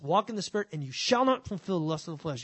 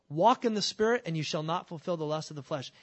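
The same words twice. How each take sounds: First: It is read as a stern, warning command. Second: It is read as a calm, plain statement. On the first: It is an order with a threat attached. The speaker calls it wrong. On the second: It is a promise of what will naturally follow. The speaker calls it right.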